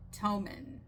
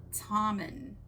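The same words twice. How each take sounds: The two takes are said the same way.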